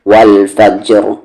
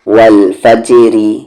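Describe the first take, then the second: First: The r is heavy, the word stops on it. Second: The r is light, with a vowel after it. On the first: The reader stops on the word. "Heavy" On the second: The reader keeps going without stopping. "Light"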